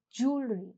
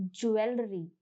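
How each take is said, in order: First: Teacher gives the right form; correct pronunciation. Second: Teacher shows the mistake; wrong pronunciation. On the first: Teacher correcting students, JOOL-ree in two syllables. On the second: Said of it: "the pronunciation is not". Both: Shown as a demonstration.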